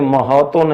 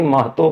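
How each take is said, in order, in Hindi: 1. h और t के बीच एक छोटा स्वर सुनाई देता है। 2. h और t के बीच कोई स्वर सुनाई नहीं देता। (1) "अगर शामिल होता तो हम इसको बोलते महतो, बट ऐसा नहीं बोलते" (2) "महतो बोलते हैं"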